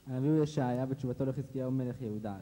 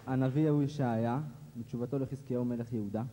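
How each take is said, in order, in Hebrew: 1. המשפט נאמר מהר. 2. המשפט נאמר לאט.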